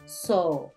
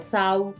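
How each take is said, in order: First: The vowel is a long, drawn-out O. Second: The vowel glides from a toward u. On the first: The speaker calls it right. "Es como una O alargada" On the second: The speaker calls it wrong. "no se pronuncia sau"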